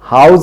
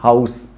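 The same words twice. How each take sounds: First: The word ends with a z sound. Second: The word ends with an s sound. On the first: The speaker calls it wrong. "ज नहीं" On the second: The speaker calls it right. "स निकलेगा"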